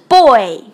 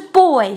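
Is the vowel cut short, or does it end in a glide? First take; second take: glide; cut short. First: The vowel glides fully into a final ee sound. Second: The vowel stops without the final ee glide. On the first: The speaker calls it right. "一定不要忘了后面有个e 在这里，就收尾的那个地方" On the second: The speaker calls it wrong. "不是boy"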